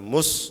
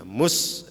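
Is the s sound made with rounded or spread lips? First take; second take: rounded; spread. First: The s is said with rounded, pouted lips. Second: The s is said with unrounded lips. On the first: The speaker calls it wrong. "kalau mus jadi shot" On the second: The speaker calls it right. "ini harus tidak boleh moncong"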